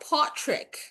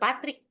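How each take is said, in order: First: The name is said in an Australian accent. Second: The name is said in a Filipino accent. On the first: "Pero dun kasi sa Australia" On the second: "In Tagalog, / In Fili- Filipino accent, Patrick lang naman"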